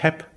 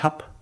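First: The verb is said with an e vowel. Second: The verb is said with an a vowel. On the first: This is the southern front Palatinate form. "wenn Sie in die südliche Vorderpfalz gehen, dann sagen die ich heb" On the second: This is the front Palatinate form. "wenn Sie in die Vorderpfalz gehen, dann sagen die ich hab"

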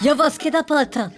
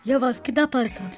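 First: The line is spoken loudly. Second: The line is spoken quietly. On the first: "Mach mal laut" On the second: "Mach mal leise"

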